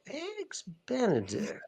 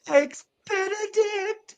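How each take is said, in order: First: It sounds suspicious. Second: It sounds joyful.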